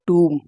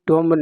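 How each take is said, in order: First: The vowel is a long 'oo' with silent 'b'. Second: The vowel is a short 'o' with 'b' sounded. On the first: The speaker calls it right. "जो pronunciation सही होता है वो टूम होता है" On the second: The speaker calls it wrong. "Pronunciation बिल्कुल गलत है, T ओ M बी टॉम्ब नहीं होता"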